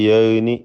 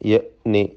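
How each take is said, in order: First: The syllables run together without a catch. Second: A clear catch separates the two syllables. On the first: The speaker calls it wrong. "എന്നൊന്നായി പോരുത്" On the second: The speaker calls it right. "ഹംസയുടെ ഉച്ചാരണം ... പ്രത്യേകം ശ്രദ്ധിക്കുക"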